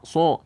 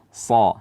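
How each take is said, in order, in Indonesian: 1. Vokal diucapkan dengan bibir dibulatkan dan dimajukan ke depan. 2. Vokalnya tebal, tetapi diucapkan dengan bibir tidak dibulatkan. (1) "dibaca so tidak" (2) "tebal tanpa memajukan bibir kita"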